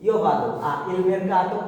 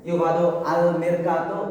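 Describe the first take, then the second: First: The preposition and article are said separately. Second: The preposition and article merge into 'al'. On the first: It is split up only to aid understanding. "বোঝার জন্য ভাইয়া বলছি" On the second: This is the correct everyday form. "সঠিক যদি আমি বলি যে দুইটা আর্টিকেল আর প্রিপজিশন মিলে যাওয়া হয়"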